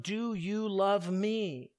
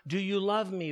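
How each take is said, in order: First: Drawn out, slower and heavier; slow, searching question. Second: Said in the usual way. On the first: Acted. Jesus pressing Peter a third time, slow and searching. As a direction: let the question hang, slowly.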